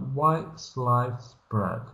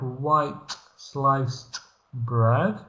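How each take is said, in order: First: The end sounds are dropped, with a glottal stop. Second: Every consonant at the word ends is fully pronounced. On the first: The speaker calls it right. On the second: The speaker calls it wrong.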